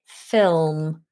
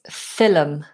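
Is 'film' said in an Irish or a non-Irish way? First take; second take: non-Irish; Irish. First: Film is said the non-Irish way. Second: Film is said the Irish way. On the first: This is how the other speaker's accent says it. "or I say, film" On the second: This is how Irish people say it. "another thing I've noticed Irish people saying is film"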